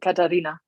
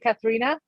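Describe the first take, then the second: First: The name is said with a German pronunciation. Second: The name is said with an American pronunciation. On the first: "the right spell in German would be Katharina" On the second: "Americans always say Katharina"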